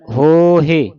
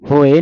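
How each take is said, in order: First: There is a middle h and final 'e' vowel. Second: There is no middle h sound. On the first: The speaker calls it right. "ਪੜਨਾ ਹੈ ਹੋਹੇ" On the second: The speaker calls it wrong. "ਹੋਏ ਨਹੀਂ ਪੜਨਾ"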